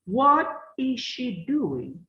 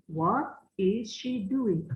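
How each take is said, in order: First: Slow model reading. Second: Said in the usual way. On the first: Shown as a demonstration. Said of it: "teacher models the question slowly". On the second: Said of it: "teacher repeats it".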